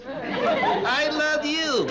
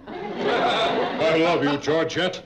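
First: Lips held still, ventriloquist style; talking with mouth closed. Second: Laughing, slow. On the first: Shown as a demonstration. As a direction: say it without moving the lips. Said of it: "without moving my lips". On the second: Acted. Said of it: "You want me to say it again?".

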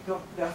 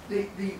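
The two takes are said the same way.

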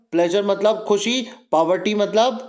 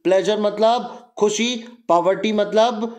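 The two takes are said the same way.

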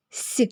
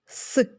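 First: Soft «с», palatalised; soft S sound. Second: Hard «с», with no palatalisation; hard S sound. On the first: Teacher showing sounds written with one letter, soft «с». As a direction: say «с» softened, as in «сі». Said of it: "приголосний м'який". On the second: Teacher showing sounds written with one letter, hard «с». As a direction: say «с» as a hard isolated consonant. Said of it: "приголосний твердий". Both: Shown as a demonstration.

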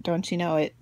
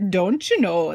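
First: Said in the usual way. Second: Playful, hammed-up Minnesotan accent. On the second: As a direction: lean into a folksy Minnesotan accent for fun. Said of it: "that was my good Minnesotan accent".

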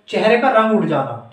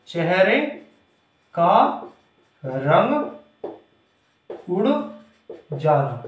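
First: Said in the usual way. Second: One word at a time, drawn out; slow dictation. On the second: Shown as a demonstration. Teacher dictating a meaning to students, slow dictation. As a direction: pause after each word so it can be written.

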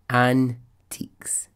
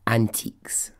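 First: "antiques" very slow, split in two syllables; drawn-out emphasis. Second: Said in the usual way. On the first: Real, not acted. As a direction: stretch out "antiques" with a gap after "an". Repeats it for incredulous emphasis.

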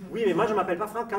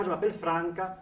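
First: Quick, high protest with "Franca" stressed on final "ca"; protest, throwing back "Franca" with end stress; mimicked wrong stress. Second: "Franca" hit on the first syllable, high; Italian stress. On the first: Exasperated Italian mimics the nurse, end stress on "Franca". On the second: Retold or imitated. Exasperated Italian corrects the nurse, first-syllable stress on "Franca". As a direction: insist on a strong "Fran" in "Franca". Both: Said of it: "où est-ce que vous mettez l'accent".

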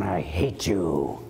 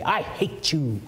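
First: Lower, slow, heavy "I hate you"; mock grim declaration; mock hateful. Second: Lightly voiced spiteful declaration; a hint of petty spite; mock hateful. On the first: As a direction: growl it out with contempt. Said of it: "It doesn't mean you go around". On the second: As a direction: say it like a sulky child. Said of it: "you go to your father and you say".

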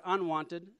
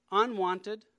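First: Said in the usual way. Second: Unwanted pushed higher and louder with a rising lift; stress on unwanted. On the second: Real, not acted. Speaker stressing the key word to listeners, unwanted punched and rising. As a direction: lean hard into unwanted, raised and loud. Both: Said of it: "I emphasize the word unwanted".

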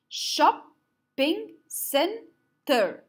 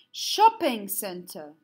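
First: "Shopping center" slowly split into four separate beats; clapping way. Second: Said in the usual way. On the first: Shown as a demonstration. Teacher counting syllables with pupils, clapping way. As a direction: leave a clear gap after each syllable of "Shopping center", voice higher. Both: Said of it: "use the clapping way".

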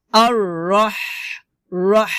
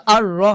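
First: আর রহ ending in thin air from mid-throat; slow আর রহ, long pharyngeal h; correct airy ha. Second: আর রহ with a short plain h; আর রহ cut short, loose h; mistaken soft ha. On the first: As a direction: hold a pressed, breathy ح at the end of আর রহ. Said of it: "হবে". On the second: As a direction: show wrong আর রহ, no squeezed air. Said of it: "আর রহ হবে না". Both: Shown as a demonstration.

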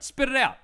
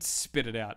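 First: Loud, high-pitched blurt; emphatic blurt. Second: Said in the usual way. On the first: Shown as a demonstration. Repeats advice as a command.

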